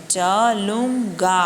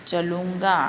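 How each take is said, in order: First: चलूंगा drawn out slowly, nasal ँ on लूं; slow nasal demo. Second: Said in the usual way. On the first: Shown as a demonstration. Teacher to pupils, चलूंगा slowly with nasal लूं. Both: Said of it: "थोड़ा नौ sound भी आता है बीच में".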